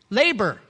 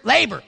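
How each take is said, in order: First: Said in the usual way. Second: Labor punched much louder, falling hard; stress on labor. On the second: Shown as a demonstration. Preacher landing the third point, stressing labor. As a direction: hit labor as the payoff. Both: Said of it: "Not laughter, not liquor, labor".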